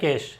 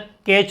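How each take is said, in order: First: The word ends with an 'sh' sound. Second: The word ends with a 'ch' sound. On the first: The speaker calls it right. "केश है या कैश है ना" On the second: The speaker calls it wrong. "कैच नहीं बोलना है"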